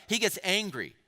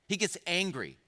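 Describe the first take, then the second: No difference in how they are said.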